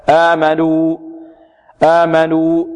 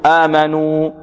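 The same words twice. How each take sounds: First: آمنوا with a clean, pure waw; آمنوا, waw with no nasal sound; correct pure waw. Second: آمنوا with the waw pushed through the nose; wrong nasal waw. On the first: Teacher giving students the correct reading, pure waw. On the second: Teacher showing students a mistake, nasal waw. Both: Shown as a demonstration. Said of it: "لا خطأ".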